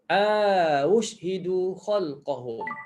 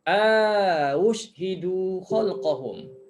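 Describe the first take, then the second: First: The first vowel is lengthened before the second hamzah. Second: The same.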